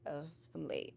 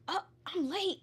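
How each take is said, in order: First: It sounds calm and relaxed. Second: It sounds flustered and hurried.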